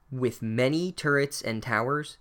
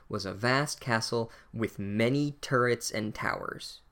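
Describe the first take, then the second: First: A slow, unimpressed echo with a questioning rise on turrets; mock the phrase, lifting turrets into a doubtful question; unimpressed repeat. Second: Reading the book aloud. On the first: Real, not acted. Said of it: "That prose is so unimpressive". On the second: Shown as a demonstration. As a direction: read slowly and a little grandly, as if from the page. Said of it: "the sentence that the narrator uses".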